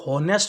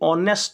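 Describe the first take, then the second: First: The word begins with an audible h sound. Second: The word begins directly with a vowel sound. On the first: The speaker calls it wrong. "इसे हॉनेस्ट ना बोल करके" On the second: The speaker calls it right. "ऑनेस्ट बोला जाएगा"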